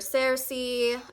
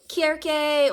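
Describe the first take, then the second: First: The name begins with a soft S sound. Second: The name begins with a hard K sound. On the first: It is the more familiar form. "I'll be saying Cersei for the rest, um, just for clarity" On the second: It is closer to the original Greek. "Kirke is actually the more um, close with the original Greek"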